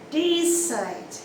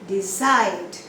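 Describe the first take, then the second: First: The stress is on the first syllable. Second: The stress is on the second syllable. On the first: The speaker calls it wrong. "We don't say decide" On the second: The speaker calls it right. "the stress is on the second syllable"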